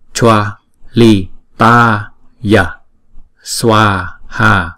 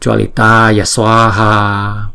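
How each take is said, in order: First: Each syllable is said slowly and separately. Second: The syllables run together, ya joined to swa. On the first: "Chúng ta đọc chậm là" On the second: "chữ A với chữ S này làm như nó liền lại"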